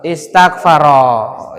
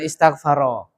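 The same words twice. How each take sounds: First: "Istaghfaro" low and drawn out; stretched, lower-pitched "Istaghfaro"; slow model reading. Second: Said in the usual way. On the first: Shown as a demonstration. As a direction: sound out "Istaghfaro" syllable by syllable. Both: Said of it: "Apa bacanya, Pak?".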